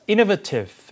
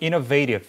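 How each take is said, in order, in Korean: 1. 영국식 발음으로 말한 것입니다. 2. 북미식 발음으로 말한 것입니다. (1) "영국식 발음이고" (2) "북미 발음 innovative 이렇게 발음하죠"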